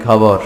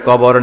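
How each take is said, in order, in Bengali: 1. শব্দটি মহাপ্রাণ KH ধ্বনি দিয়ে শুরু। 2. শব্দটি সাধারণ K ধ্বনি দিয়ে শুরু।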